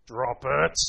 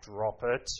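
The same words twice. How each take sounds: First: Low, firm dog command; deep, louder command to a dog. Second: Mock growled command, lower; imitating daughter's growl. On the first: Shown as a demonstration. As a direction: drop the voice and order the dog. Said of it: "as deep as you can". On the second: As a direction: copy the little girl growling at the dog. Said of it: "I can hear her growling at my dog".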